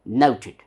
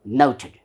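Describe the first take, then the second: No difference in how they are said.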